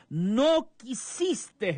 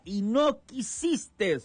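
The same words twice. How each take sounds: First: Slow, higher, drawn-out lament; a lamenting exclamation, slow and high; exclaimed lament. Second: Slow, higher, drawn-out lament; a sorrowful exclamation, slow and high; exclaimed lament. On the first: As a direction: cry out the rejected love. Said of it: "en signo de admiración". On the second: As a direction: mourn the refusal, slowly. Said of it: "dice esta pronunciación con signos de admiración". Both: Retold or imitated.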